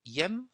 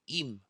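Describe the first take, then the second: First: The word has an e vowel. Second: The word has an i vowel. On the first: The speaker calls it wrong. "He says Yem" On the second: The speaker calls it right. "we say Im"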